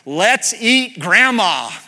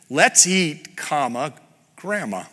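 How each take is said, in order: First: There is no pause before the last word. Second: There is a pause before the last word. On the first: "this sentence without a comma" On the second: "There it is with a pause"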